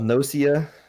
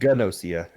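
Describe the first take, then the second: First: The name starts with an N sound. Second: The name starts with a G sound. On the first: "the way you said it originally" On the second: "It's spelled with a G on on the start of that"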